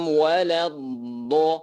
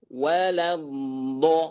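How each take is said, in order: Both takes have the same delivery.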